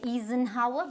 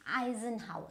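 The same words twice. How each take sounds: First: Eisenhower said as ee-zen-hower; wrong way. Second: Eisenhower said as eye-zen-hower; correct pronunciation. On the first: Teacher showing the wrong Eisenhower as ee-zen-hower. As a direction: show the wrong Eisenhower starting ee. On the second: Teacher modelling the right Eisenhower as eye-zen-hower. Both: Shown as a demonstration. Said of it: "but no, it is".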